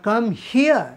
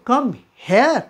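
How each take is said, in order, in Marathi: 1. 'here' शब्दात 'ear' असा स्वर आहे. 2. 'here' शब्दात 'air' असा स्वर आहे. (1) "सो कम हिअर" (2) "हेअर म्हणजे हेअरचं केस असाही अर्थ होईल"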